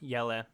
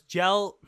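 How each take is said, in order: First: The name is said the non-American way. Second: The name is said the American way. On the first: The speaker calls it right. "I should try to say his name more right" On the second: The speaker calls it wrong. "Gel is like the American pronunciation"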